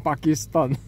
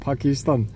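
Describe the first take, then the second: First: The consonants are pronounced tense and hard. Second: The consonants are pronounced soft and lax. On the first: "빨리를 신봉하는 분들 발음식대로 하면" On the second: "부드럽게 하면"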